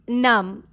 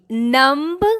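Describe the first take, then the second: First: The final B is silent. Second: The final B is sounded. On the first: The speaker calls it right. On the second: The speaker calls it wrong.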